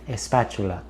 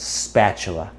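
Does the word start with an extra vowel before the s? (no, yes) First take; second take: yes; no. First: An extra vowel sound comes before the s. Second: The word begins directly with the s sound. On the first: The speaker calls it wrong. "they have the habit of saying espatula" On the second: The speaker calls it right. "really focus on saying the S sound first"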